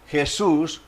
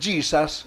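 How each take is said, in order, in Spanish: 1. El nombre tiene una pronunciación española. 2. El nombre tiene una pronunciación inglesa.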